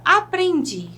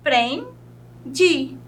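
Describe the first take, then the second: First: Said in the usual way. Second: "aprendi" split slowly into a, pren, di; syllable by syllable. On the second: Shown as a demonstration. Teacher separating syllables for the class, "aprendi" slowly broken up. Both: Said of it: "Eu separando as sílabas fica".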